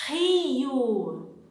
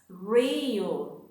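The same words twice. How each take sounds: First: It begins with a throaty H-like sound. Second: It begins with an English-style R sound. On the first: The speaker calls it right. "it's the same sound for the words" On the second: The speaker calls it wrong. "as an English speaker, you tend to pronounce something like this"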